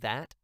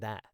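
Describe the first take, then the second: First: The final T is sharply over-pronounced. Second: The final T is light and barely released. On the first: The speaker calls it wrong. "things that end in T, I tend to over pronunciate that" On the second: The speaker calls it right. "It sounds more conversational"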